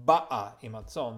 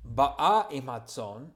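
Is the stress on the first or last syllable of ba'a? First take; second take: first; last. First: The stress is on the first syllable of ba'a. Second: The stress is on the last syllable of ba'a. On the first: She has already arrived. "The emphasis is on the first" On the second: She is coming now. "means is coming with the sheep. It is present tense"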